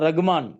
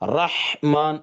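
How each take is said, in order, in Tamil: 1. h ஒலிக்குப் பின் ஓர் உயிரெழுத்து சேர்க்கப்படுகிறது. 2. h ஒலி எந்த உயிரெழுத்தும் இல்லாமல் நீட்டப்படுகிறது. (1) "ரகு இல்ல. அதுவும் தப்பு தான்" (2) "ரஹ்மான் அவ்வளவுதான். அதை கொஞ்சம் கூட அசைக்க கூடாது"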